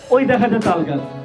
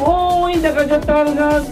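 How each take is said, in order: First: It is recited in a plain, ordinary voice. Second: It is recited in a put-on preacher-like style. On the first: An ordinary contestant recites it. "খুবই normal normal ভাবে" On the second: A religious student recites it. "একজন মাদ্রাসার একজন student"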